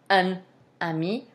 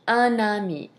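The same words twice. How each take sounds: First: The two words are said separately, without linking. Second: The two words are linked as one unit. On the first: The speaker calls it wrong. "We're not going to say" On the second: The speaker calls it right. "we're going to say"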